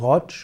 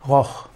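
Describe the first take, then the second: First: The word ends with a tsch sound. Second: The word ends with a throaty ch sound. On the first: "als Rotsch" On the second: "oder eben auch als Rock, Roch"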